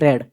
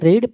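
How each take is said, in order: First: The vowel is short, like in red. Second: The vowel is long, like in reed. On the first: It is the past tense. "Past ଫର୍ମକୁ କୁହନ୍ତି ରେଡ୍" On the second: It is the present tense. "Present ଫର୍ମକୁ କୁହନ୍ତି ରିଡ୍"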